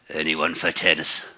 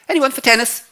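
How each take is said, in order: First: It is said in a threatening, menacing tone. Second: It is said in a light, cheerful tone. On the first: The speaker is challenging and threatening the others. "In increasingly menacing tones" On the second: An eager young character is inviting others to play. "a juvenile lead was supposed to bound on and go"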